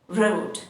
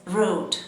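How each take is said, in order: No difference in how they are said.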